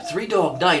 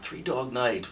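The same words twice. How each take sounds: First: The name is said with excited enthusiasm. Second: The name is said with puzzled uncertainty. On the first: The listener loves the band. "oh, Three Dog Night. Oh my God, I love that band" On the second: The listener does not know the band. "um, Three Dog Night. Ooh, it's a band?"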